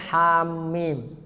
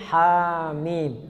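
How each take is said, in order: First: The middle m is doubled and stressed. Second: The word is said plainly without doubling or holding. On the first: The speaker calls it wrong. "Jadi jangan sampai hamim" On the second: The speaker calls it right. "nggak ada tasdid, biasa aja hamim"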